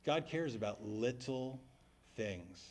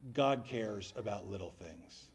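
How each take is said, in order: First: Low, soft echo of the line; repeated softly. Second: Calm answer. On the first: Shown as a demonstration. A pastor echoing the teacher to the congregation, soft and slow. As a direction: let the words sink in. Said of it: "repeats professor's line". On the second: Retold or imitated. A professor answering the question, slow and calm. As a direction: let it land gently like a wise teacher. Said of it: "He sat back and he said".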